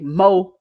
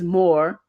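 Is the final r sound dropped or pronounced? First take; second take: dropped; pronounced. First: The final r sound is dropped. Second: The final r sound is pronounced. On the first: The speaker calls it wrong. "Don't say mo" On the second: The speaker calls it right. "is more"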